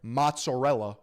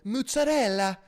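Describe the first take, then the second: First: It is said in a plain, everyday accent. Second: It is said in an exaggerated Italian accent. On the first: It is spelled out for people who do not know it. "for you uncultured slugs" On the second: It is the fancy, overly refined way to say it. "if you're an Italian princess"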